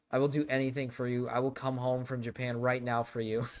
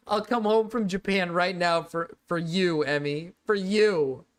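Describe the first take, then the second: First: Said in the usual way. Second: Loud, high overacted plea; melodramatic begging. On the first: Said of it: "first plain take of line". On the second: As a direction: ham up the desperate promise. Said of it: "hammed second take".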